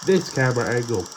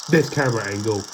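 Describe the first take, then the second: No difference in how they are said.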